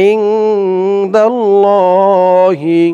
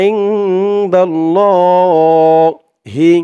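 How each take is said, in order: Both takes have the same delivery.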